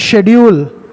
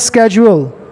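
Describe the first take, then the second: First: The word begins with an 'sh' sound. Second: The word begins with a 'sk' sound. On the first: This is the British English pronunciation. "British English में कहते हैं शेड्यूल" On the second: This is the American English pronunciation. "American English में कहते हैं स्केजुअल"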